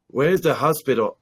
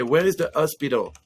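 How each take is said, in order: First: "hospital" with the H sounded; H pronounced. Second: "hospital" said as "ospital"; French dropped H. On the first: Newcomer asking directions, mistakenly with the H in "hospital". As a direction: say "hospital" starting on a clear H. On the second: French newcomer in America asking directions, "hospital" without its H. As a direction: leave the H off "hospital". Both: Shown as a demonstration. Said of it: "no, I would say".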